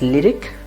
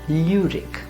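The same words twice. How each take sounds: First: The first vowel sounds like English 'lyric'. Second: The first vowel is a rounded 'ü' sound. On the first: The speaker calls it wrong. "You will tend to pronounce it as lyric because of English" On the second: The speaker calls it right. "it should be lyric"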